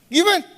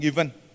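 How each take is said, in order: First: It is said at a high pitch. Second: It is said at a normal pitch.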